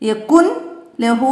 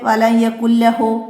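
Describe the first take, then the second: First: The n is pronounced clearly before the l. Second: The n merges into the following l sound. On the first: The speaker calls it wrong. "നമ്മൾ പറയൂല" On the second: The speaker calls it right. "ഇവിടെ നൂനിനെ ഉച്ചരിക്കാ ഉച്ചരിക്കരുത്"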